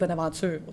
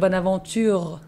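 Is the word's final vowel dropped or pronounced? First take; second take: dropped; pronounced. First: The word is said quickly, final vowel dropped. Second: The ending of the word is fully pronounced. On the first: "on le fait vite Bonaventure, tu sais. Il n'y a plus de E" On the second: "ils prononcent euh, les fins des mots"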